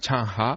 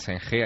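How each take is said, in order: First: The name is said with Chinese-style sounds. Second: The name is said with Spanish-style sounds. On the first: This is how the name is said in China. The speaker calls it right. "allí se llama Chang Ha" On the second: This is how the name is said outside China. The speaker calls it wrong. "Allí no se llama Zheng He"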